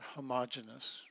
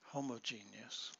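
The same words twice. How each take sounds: First: It is said with a Nebraska regional pronunciation. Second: It is said with the standard pronunciation. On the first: The speaker calls it wrong. "In Nebraska, we grow up pronouncing that homogeneous. Don't do that" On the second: The speaker calls it right. "Homogeneous, please"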